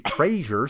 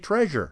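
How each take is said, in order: First: The first vowel sounds like the vowel in tray. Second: The first vowel sounds like the vowel in tread. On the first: The speaker calls it wrong. "Don't say treasure / T-R-A-Y" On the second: The speaker calls it right. "say treasure"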